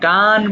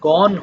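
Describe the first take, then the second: First: The vowel is an open 'ah' sound. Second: The vowel is a rounded 'o' sound. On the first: The speaker calls it wrong. "এটা অনেকে আমরা গান বলে ফেলি" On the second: The speaker calls it right. "এটা কিন্তু গন হবে"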